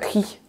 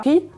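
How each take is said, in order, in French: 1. Le mot commence par un son h aspiré. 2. La première consonne est muette, pas de son h. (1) "on entendra plutôt un H spiré" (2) "cette lettre sera muette"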